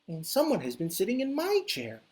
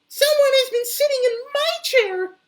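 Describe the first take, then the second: First: A medium-sized Mama Bear voice. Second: A high, tiny, crying Baby Bear voice.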